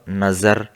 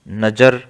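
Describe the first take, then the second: First: The ज is said with the nukta-changed sound. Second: The ज is said as its plain sound.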